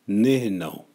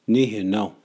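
The two takes are said the same way.

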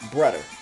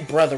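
First: The middle consonant is a 'd' sound. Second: The middle consonant is a 'th' sound. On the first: "Meaning it's spelled B-R-U-D-E-R" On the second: "We don't say brother"

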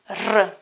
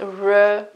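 First: The R is strongly rolled with a tongue trill. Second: The R is soft, without a tongue trill. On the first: The speaker calls it right. "but it's absolutely R. It's very strong" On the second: The speaker calls it wrong. "It's not R"

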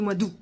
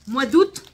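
First: The word août ends without a T sound. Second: The word août ends with a T sound. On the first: This is how the speaker personally says it. "moi je dis mois d'août" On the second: This is how people say it in the south. "ici, dans le sud"

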